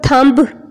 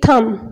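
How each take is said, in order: First: The word ends with a B sound. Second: The word ends on an M sound. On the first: The speaker calls it wrong. "हम कभी भी इसको थंब नहीं पढ़ेंगे" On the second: The speaker calls it right. "थम में जो बी है वो साइलेंट है"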